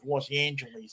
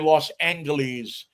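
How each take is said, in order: First: The name has the usual modern pronunciation. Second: The name has an old-fashioned pronunciation. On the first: "instead of Los Angeles" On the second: "the old way that the detectives used to say it"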